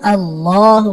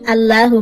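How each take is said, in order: First: The 'l' sound is heavy and full. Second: The 'l' sound is thin and light. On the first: The speaker calls it right. "আল্লাহু বলতে হবে, আল্লাহ শব্দ মোটা হবে" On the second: The speaker calls it wrong. "আল্লাহু বলা যাবে না"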